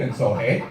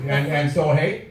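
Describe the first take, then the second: First: Put-on a light Wisconsin accent, tagging "hey" on the end with a rising tune; a hint of Wisconsin, "hey" said as a rising question tag. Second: Wisconsin "hey" demo. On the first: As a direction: wrap it up the Manitowoc way, "hey" lifted up at the end. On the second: Shown as a demonstration. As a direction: show the crowd the Manitowoc sentence ending, lifting "hey". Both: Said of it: "That's how you end every sentence in Manitowoc".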